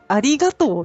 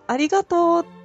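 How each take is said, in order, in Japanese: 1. 真ん中が上がって、そのあと音の高さが急に下がります。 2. 終わりの近くで、音の高さが急に下がることはありません。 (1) "結構下がるんですよ。真ん中が上がって" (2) "ありがとうじゃなくて"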